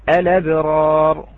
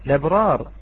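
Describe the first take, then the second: First: It begins with a glottal stop before the L. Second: It begins directly with the L sound. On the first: "الوجه الأول وهو المقدم في الأداء الإتيان بهمزة الوصل" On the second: "يجوز لنا الابتداء باللام دون الهمزة"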